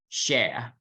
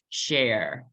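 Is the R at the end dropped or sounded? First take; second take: dropped; sounded. First: The R at the end is dropped. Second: The R at the end is clearly sounded. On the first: "British accent, they don't hit the R" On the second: "kita pakai aksen American... suara R-nya juga kita lipat"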